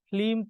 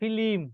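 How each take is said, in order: First: The l and m sounds come together without a vowel. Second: An i vowel is inserted between l and m. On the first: "ফিল্ম থেকে ফিলিম" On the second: "ফিল্ম থেকে ফিলিম"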